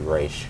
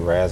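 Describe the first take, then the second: First: The name ends with an sh sound. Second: The name ends with a z sound. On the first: "or are you Raish? I say Raish" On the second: "are you Raz"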